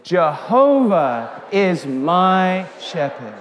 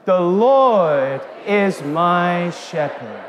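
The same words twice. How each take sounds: First: Slow, with Jehovah in place of Lord; Jehovah stressed, recited slowly; saying Jehovah. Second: Slow, drawn-out unison line; chanting scripture together; congregation recitation. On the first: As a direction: lean on Jehovah, drawn out. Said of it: "let's say Jehovah". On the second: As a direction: lead the room through it. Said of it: "Let's say that again". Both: Shown as a demonstration.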